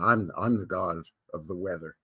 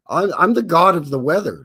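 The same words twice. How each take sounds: First: Lower, darker mock god of the weather; "I'm, I'm the god of the weather" low and ominous, like a deity; deep god voice. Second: Booming mock god voice, louder; first try at a grand god voice; god of the weather. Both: Shown as a demonstration. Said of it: "No, no, no, hold on".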